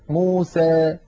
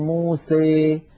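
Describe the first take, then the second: First: The final vowel leans slightly toward 'ee'. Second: The final vowel leans strongly toward 'ee'. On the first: "ويخلطون هذا الصوت بشيء من الياء" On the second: "فيخلط صوت الألف بصوت الياء أكثر من هذا"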